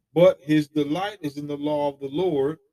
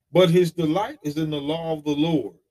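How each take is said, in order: The two takes are said the same way.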